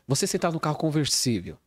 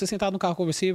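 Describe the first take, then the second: First: The phrase is spoken slowly with pauses. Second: The phrase is spoken quickly without pausing. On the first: The listener has time to picture the scene. The speaker calls it right. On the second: The listener cannot picture the scene. The speaker calls it wrong.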